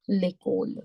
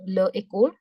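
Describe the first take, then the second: First: The two words are merged, first vowel dropped. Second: The two words are said separately, both vowels kept.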